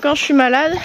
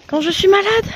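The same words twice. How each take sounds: First: Said in the usual way. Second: Higher pitched, whiny emphasis; high-pitched repeat. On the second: Real, not acted. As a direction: whine it up high.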